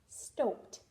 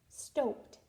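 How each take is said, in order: The two takes are said the same way.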